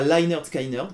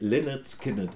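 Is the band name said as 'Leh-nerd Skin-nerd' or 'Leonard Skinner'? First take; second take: Leonard Skinner; Leh-nerd Skin-nerd. First: The name sounds like the ordinary 'Leonard Skinner'. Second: The name sounds like 'Leh-nerd Skin-nerd'. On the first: The speaker calls it wrong. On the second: The speaker calls it right.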